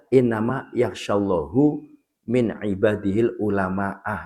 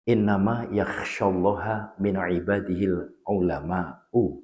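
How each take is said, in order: First: Allah ends in -hu, ulama ends in -ah. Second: Allah ends in -ha, ulama ends in -u. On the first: The speaker calls it wrong. "itu wah itu kacau" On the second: The speaker calls it right. "Itu perlu itu"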